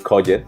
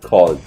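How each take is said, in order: First: The ending is a separate ed syllable. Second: The ending is just a d sound. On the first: The speaker calls it wrong. "Como ustedes me dicen en clase" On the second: The speaker calls it right. "se debe pronunciar called... Con una d al final"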